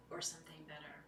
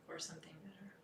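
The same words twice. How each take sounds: First: Whispered refrain, barely voiced. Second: Said in the usual way. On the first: Real, not acted. Echoing the mantra to the circle in a whisper. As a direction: let it out as a hushed breath.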